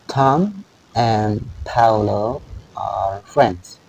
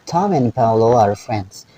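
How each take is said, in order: First: The sentence is spoken slowly and carefully. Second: The sentence is spoken at normal speed.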